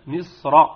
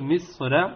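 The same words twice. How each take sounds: First: The r sound is heavy and full. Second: The r sound is thin and light. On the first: The speaker calls it right. "وإنما مصر مفخمة" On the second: The speaker calls it wrong. "لا نقول مصر"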